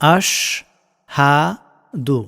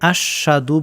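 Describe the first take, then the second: First: The h sound in the middle is clear. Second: The h sound in the middle is dropped. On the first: The speaker calls it right. "হাটাকে যাতে ক্লিয়ারলি বোঝা যায়" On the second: The speaker calls it wrong. "অনেকে আশহাদু বলেন, হাটা উচ্চারণ করেন না"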